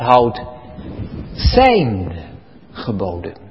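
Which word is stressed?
zijn. The stress falls on the word zijn. The focus is on whose commandments they are. The speaker calls it right. "Gods geboden"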